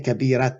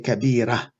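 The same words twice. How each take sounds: First: The word ends with a t sound. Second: The word ends with an h sound. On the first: The speaker calls it wrong. "We don't say" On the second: The speaker calls it right. "we say"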